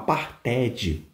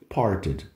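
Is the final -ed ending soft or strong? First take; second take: strong; soft. First: The final -ed ending is strong and full. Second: The final -ed ending is soft and light. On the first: The speaker calls it wrong. "se você falar parted, fica feio" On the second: The speaker calls it right. "Quanto mais suave esse ED ficar no final, melhor"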